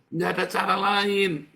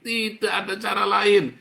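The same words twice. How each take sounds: First: Preached loud and high; forceful preaching shout; loud exhortation. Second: Even louder, higher preaching cry; climbing pulpit shout; loud exhortation. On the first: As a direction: hammer it home from the pulpit. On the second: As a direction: drive it home harder. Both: Real, not acted.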